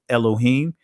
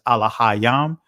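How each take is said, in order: First: It starts with 'e' and has an 'o' sound. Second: The vowels are all 'a' sounds, with no 'o'. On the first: This is the modern Israeli form of the word. "the Israeli pronunciation is" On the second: This is the ancient form of the word. "the ancient pronunciation is"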